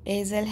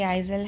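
First: The first vowel is a plain 'ay' sound. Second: The first vowel is an 'eye' glide. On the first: "एजल है कि आइजल है?" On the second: "एजल है कि आइजल है?"

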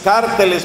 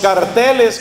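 First: The stress is on the first syllable. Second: The stress is on the second syllable. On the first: This is how people in the local country sometimes say it. "cárteles pronuncian algunas veces en este país" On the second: This is how the speaker's home country says it. "como pronunciamos en mi país"

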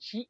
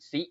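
First: The syllable starts with an 'sh' sound. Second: The syllable starts with a plain 's' sound. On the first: The speaker calls it right. "อ่านเป็นชิ" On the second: The speaker calls it wrong. "ไม่อ่านซิ"

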